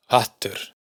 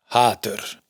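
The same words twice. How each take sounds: First: "hattur" con la a corta y la t doble; vocal corta. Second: "hatur" con la a larga; vocal larga. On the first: (a corta en "hattur") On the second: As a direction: alarga la a de "hatur". (a larga en "hatur") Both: Shown as a demonstration.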